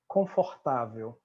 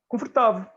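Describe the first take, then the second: First: It is said with a Brazilian Portuguese accent. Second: It is said with a European Portuguese accent.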